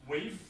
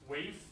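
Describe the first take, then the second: First: It is said as one contracted syllable. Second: The same.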